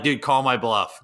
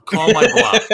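First: Said in the usual way. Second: Much higher, louder laughing dare; emphatic dare. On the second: Retold or imitated. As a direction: push the dare hard, half laughing. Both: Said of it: "I'm like".

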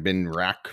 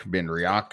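First: Benriach with a short 'rack' ending; two-syllable Benriach. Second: Benriach split into 'bin-ree-OCK'; three-syllable Benriach. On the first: Host checking the whisky name with co-host, Benriach as 'bin-rack'. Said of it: "did I say that right?". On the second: Host trying another version on co-host, Benriach as 'bin-ree-ock'. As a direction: say Benriach with 'ree-ock' at the end. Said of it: "people say it differently". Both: Shown as a demonstration.

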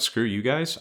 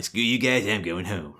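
First: Said in the usual way. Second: Cartman impression. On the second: Arnold quitting on Washington, done as a bratty Cartman. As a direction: do a quick Cartman from South Park. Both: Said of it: "like Cartman".

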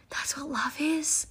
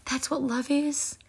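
First: Slow whispered repeat, softer; awed whisper. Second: Said in the usual way. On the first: Real, not acted. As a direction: hush it in wonder.

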